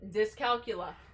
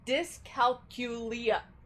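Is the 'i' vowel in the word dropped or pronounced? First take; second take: dropped; pronounced. First: The 'i' vowel near the end is dropped. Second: The 'i' vowel near the end is pronounced. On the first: "Why don't I pronounce the I?" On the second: "Now I have to adjust my pronunciation"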